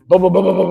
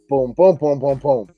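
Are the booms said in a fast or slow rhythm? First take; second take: fast; slow. First: The booms come quickly, closely spaced. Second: The booms come slowly, widely spaced. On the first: Shots fired rapidly at close range. "at five yards, I can just" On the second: Shots paced for accuracy at longer range. "to be more accurate at ten yards, my cadence in my mind needs to be like"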